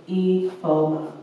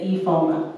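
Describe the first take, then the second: First: Name drawn out slowly, each syllable spaced: Ifoma. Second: Said in the usual way. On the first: Retold or imitated. Repeating her name slowly for the customer.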